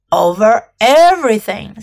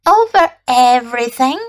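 First: Grand, simple royal statement; magnificent simplicity. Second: "Over everything?" rising at the end as a question; questioning echo. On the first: King tells the prince what he rules, magnificently simple. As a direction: state it as settled fact. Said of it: "with magnificent simplicity". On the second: Little prince checks the king's claim, "Over everything?" rising questioningly. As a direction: repeat "Over everything?" with an upward, querying lift. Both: A narrator's reading.

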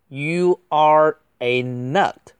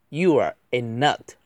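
First: Slow, higher and louder, word by word; emphatic, drawn-out delivery; slow model reading. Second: Said in the usual way. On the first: Shown as a demonstration. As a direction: stretch out each word for learners. Slow model reading, then faster repeat.

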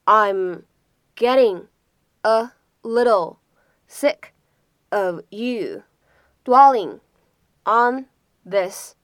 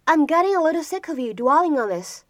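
First: Slow, with a clear pause after each short chunk; separated words, each given its own beat. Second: Said in the usual way. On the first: Shown as a demonstration. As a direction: dictate it piece by piece for learners. Teacher breaks sentence down word by word.

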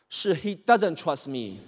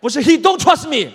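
First: "doesn't" said slowly and carefully; slow, deliberate "he doesn't trust me"; measured correction. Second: "don't" yelled high and loud as the mistake; high, very loud "he don't trust me"; shouted correction. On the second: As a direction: bellow the faulty "don't" back in exasperation. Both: Acted. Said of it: "我跟你说过很多遍了啊".

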